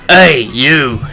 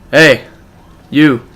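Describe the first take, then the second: First: It is said in a rough, throaty voice. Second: It is said in a plain voice.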